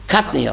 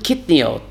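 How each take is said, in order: First: The first vowel sounds like 'ah'. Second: The first vowel sounds like 'ee'. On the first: The speaker calls it right. "katniot with a komets" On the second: The speaker calls it wrong.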